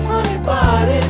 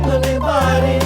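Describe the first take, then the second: The two takes are said the same way.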